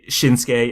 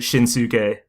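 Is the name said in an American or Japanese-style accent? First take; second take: Japanese-style; American. First: The name is said with a Japanese-style accent. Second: The name is said with an American accent. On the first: The speaker is trying to sound authentic. "you say Shinsuke" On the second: The speaker says it the ordinary local way. "instead of Shinsuke"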